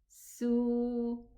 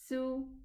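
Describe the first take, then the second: First: The vowel is held for two counts. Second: The vowel is cut short. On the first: "With a waw sukoon, ... Two counts" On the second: "Just the sin dhamma"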